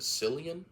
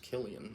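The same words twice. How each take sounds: First: The name begins with a soft S sound. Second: The name begins with a hard K sound. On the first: The speaker calls it wrong. "I used to pronounce it Cillian Murphy. That just rolls off the tongue better than Killian" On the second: The speaker calls it right. "I'm pretty sure it's Cillian Murphy"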